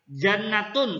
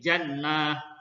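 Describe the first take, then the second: First: The word ends with the full vowel ending. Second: The word ends in an h sound, no vowel. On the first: This is the full original form. "Misalnya jannatun" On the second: This is how it is read when stopping. "diubah menjadi huruf H dan dibaca sukun"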